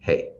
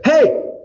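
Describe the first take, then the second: First: It is said quietly, without force. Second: It is said loudly, with force.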